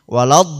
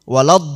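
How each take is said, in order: Both takes have the same delivery.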